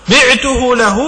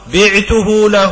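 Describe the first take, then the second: First: بعته له said high, with بعته stressed; teacher hammering the point home; emphatic repeat. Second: Slow, deliberate بعته له with each word drawn out; dictating the formula slowly; slow quoted formula. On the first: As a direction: stress بعته as the key word. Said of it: "أنا مالك". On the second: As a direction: spell out بعته له slowly for the students. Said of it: "أقول". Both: Shown as a demonstration.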